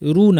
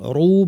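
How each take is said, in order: First: The syllable is said light and thin. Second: The syllable is said heavy and full. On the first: The speaker calls it wrong. "রু না কিন্তু" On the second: The speaker calls it right. "রু ভারী"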